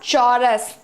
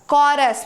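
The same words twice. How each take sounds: First: The word begins with a ch sound. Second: The word begins with a k sound. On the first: The speaker calls it wrong. "It's not ch" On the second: The speaker calls it right. "it's k"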